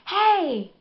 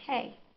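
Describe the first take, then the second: First: The greeting sounds overexcited and eager. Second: The greeting sounds casual and relaxed.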